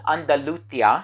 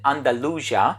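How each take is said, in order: First: The name is said the Spanish way. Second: The name is said the English way. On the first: "I believe I'm pronouncing that correctly" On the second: "in English they pronounce it Andalusia"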